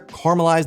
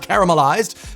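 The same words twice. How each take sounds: First: The middle vowel is dropped from the word. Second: The middle vowel is clearly pronounced in the word. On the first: The speaker calls it right. "we sort of just ignore the A in the middle of the word" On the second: The speaker calls it wrong. "not caramelized"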